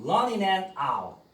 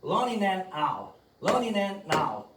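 First: Running and out을 한 덩어리로 이어서; running and out, D 없이 붙여 굴리듯; linked sounds. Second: Running and out을 천천히 또박또박 이어서; running and out, 느리게 붙여 시범; slow linked demo. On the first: (연음 발음) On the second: (느린 연음 시범) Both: Shown as a demonstration. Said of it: "요렇게 발음이 붙어요".

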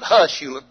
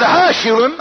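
First: Said in the usual way. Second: Higher, louder, insistent scolding; exasperated hushing. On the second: Retold or imitated. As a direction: shush him urgently over his whooping. Exasperated second hushing over whoops.

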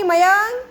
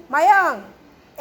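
First: Questioning call of the name. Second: Patient drawn-out call; slow drawn-out call. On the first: Teacher calls a child's name. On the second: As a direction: stretch the name very slowly, falling. Teacher calls the child again. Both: Real, not acted.

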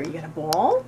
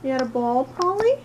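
First: Said in the usual way. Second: Pet talk. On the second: Real, not acted. Owner coos up at her cat about its ball, high and sing-song. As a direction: coo it up at the cat like a delighted owner.

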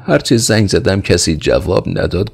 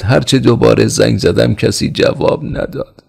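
First: Frightened report, pitched high; trembling servant. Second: High, anxious report; frightened servant. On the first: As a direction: report the dead line, scared. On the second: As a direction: plead that nobody answered. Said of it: "زیر لب گفت". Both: A narrator's reading.

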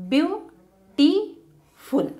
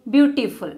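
First: Beautiful slowly as beau-ti-ful, first beat rising; syllable by syllable. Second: Said in the usual way. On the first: Shown as a demonstration. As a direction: split Beautiful into three slow beats. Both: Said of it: "separate a word into syllables".

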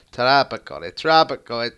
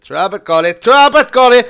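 First: Said in the usual way. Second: Chanted, climbing higher and louder each time; rising chant to a shout. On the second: Real, not acted. Chanted, gamer cheering his scorer, louder and higher. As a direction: build the chant into a yell.

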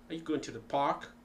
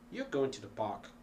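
First: Quick question, "park" rising; question intonation. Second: "park" falling at the end; statement intonation. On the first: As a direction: ask it, lifting "park" at the end. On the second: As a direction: state it, letting "park" drop. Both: Shown as a demonstration. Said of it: "hundreds of ways of pronouncing the same thing".

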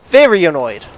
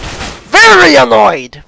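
First: Said in the usual way. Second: High, loud, drawn-out annoyed yell; loud exasperated wail. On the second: Real, not acted. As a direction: stretch VERY ANNOYED into a long falling shout.

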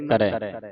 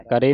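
First: ਕਰੈ ending in open "ai"; ਕਰੈ with the double-lavan vowel; correct reading. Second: ਕਰੇ ending in narrow "e"; ਕਰੇ with a single-lavan ending; wrong reading. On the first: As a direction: say ਕਰੈ as "karai", lower. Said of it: "ਦਲਾਵਾਂ". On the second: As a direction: say ਕਰੇ as "kare". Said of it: "ਨਹੀਂ ਪੜ੍ਹਨਾ". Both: Shown as a demonstration.

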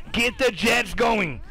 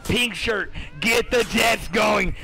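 First: Drawn-out slow call to get going; slow hype call. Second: Drawn-out slow call, Pink Shirt first; slow hype call. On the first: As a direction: stretch each word like a hype man. Hyping up player. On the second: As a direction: stretch it out like a hype man. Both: Real, not acted.

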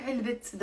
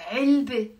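First: "علبة" alone as 3elbit, with a final t; wrongly sounded t. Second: "علبة" as 3elbe, open vowel ending; silent ta marbuta. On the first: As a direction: show the mistake: "علبة" ending in t. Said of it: "That would be wrong". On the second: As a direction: model "علبة" on its own, no final t. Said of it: "we pronounce it". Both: Shown as a demonstration.

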